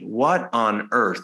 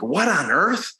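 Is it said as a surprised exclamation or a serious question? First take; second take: serious question; exclamation. First: It sounds like a serious, literal question. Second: It sounds like a surprised exclamation.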